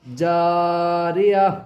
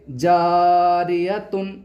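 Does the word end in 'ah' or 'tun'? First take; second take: ah; tun. First: The word ends softly in 'ah' without 'tun'. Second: The word ends with a full 'tun' ending. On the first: The speaker calls it right. "अब इसको हम पढ़ेंगे जारिया" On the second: The speaker calls it wrong. "अब इसको हम ऐसे नहीं पढ़ेंगे"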